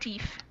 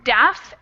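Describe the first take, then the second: First: The vowel is a long 'ee' sound. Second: The vowel is a short 'eh' sound. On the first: The speaker calls it wrong. "instead of deef" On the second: The speaker calls it right. "It's actually pronounced def, eh"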